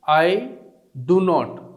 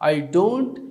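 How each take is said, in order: First: Do and not are said as two full words. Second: Do and not merge into one short syllable.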